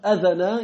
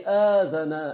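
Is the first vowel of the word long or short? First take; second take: short; long. First: The first vowel is short. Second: The first vowel is long. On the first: The speaker calls it right. "au lieu de dire adhana" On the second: The speaker calls it wrong. "il a juste prolongé une lettre"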